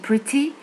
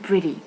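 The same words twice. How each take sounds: First: The middle t is a clear t sound. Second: The middle t sounds like a d. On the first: "هي pretty" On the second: "كأمريكان speaker um, بيقول على التي كانت دي"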